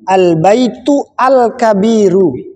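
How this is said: A break separates the words, restarting with al. "kalaupun kita mau motong boleh saja, tapi motongnya yang benar"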